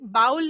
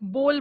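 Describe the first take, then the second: First: The vowel sounds like 'ow' in cow. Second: The vowel sounds like 'oh' in go. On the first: The speaker calls it wrong. "बाउल नहीं" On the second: The speaker calls it right. "बोल बोला जाता है"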